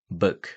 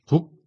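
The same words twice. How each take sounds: First: The vowel is a short, lax breathy sound. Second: The vowel is a tense Korean-style 'u'. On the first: The speaker calls it right. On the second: The speaker calls it wrong.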